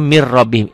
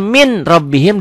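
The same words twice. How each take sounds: First: Sung, "mir rabbihim" with n merged into a doubled r; idgham without hum. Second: Said in the usual way. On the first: Shown as a demonstration. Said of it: "idgham tanpa dengung". (sung, "mir rabbihim", n lebur ke r tanpa dengung) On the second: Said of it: "Tulisannya min rabbihim".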